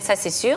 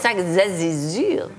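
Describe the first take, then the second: First: The phrase is said with a native French accent. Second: The phrase is said with a German accent. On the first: "Wir sagen" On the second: "Und der Deutsche und sagt"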